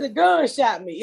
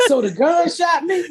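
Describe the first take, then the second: First: Said in the usual way. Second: High, laughing disbelief rising at the end; incredulous question. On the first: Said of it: "I said". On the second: Retold or imitated. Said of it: "I said, The gun shot me".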